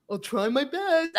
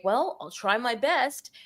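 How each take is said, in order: First: Slow, meek juror repeating himself, lightly voiced; drawn-out, noncommittal hedge; hesitant juror again. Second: A slow, unsure juror voice, lightly done; hesitant juror. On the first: Juror repeating his answer to the prosecutor, slow and meek. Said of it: "He says it again". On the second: Retold or imitated. Juror answering the prosecutor, slow and unsure. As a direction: drag it out like a juror hedging. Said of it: "a juror would say".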